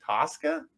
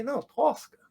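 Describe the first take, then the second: First: Tosca as a puzzled, high rising question; friends' mispronunciation. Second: Tosca said the native way, pitched high; correcting pronunciation. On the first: Friends repeating sister's name, Tosca mispronounced as a high question. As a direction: try Tosca with an American vowel, pitched up. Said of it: "And they say". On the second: Correcting friends on sister's name, Tosca pronounced natively, high. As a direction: insist on Tosca as the family says it. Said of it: "I say". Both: Retold or imitated.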